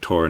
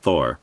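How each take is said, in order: First: It starts with a plain t sound. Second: It starts with a th sound. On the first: The speaker calls it right. "based on the German pronunciation, perhaps it's Tor" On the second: The speaker calls it wrong. "not Thor"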